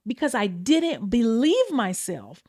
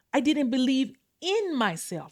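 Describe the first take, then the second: First: Said in the usual way. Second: In "I didn't believe in myself" the word "in" is stressed. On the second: Shown as a demonstration. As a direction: lean on "in" so believing in yourself stands apart from "believe myself". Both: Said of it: "Those are two different things".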